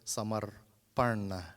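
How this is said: The final N is said the Southern Indian way. This is how people in the South say it. "Those of us in the South would say"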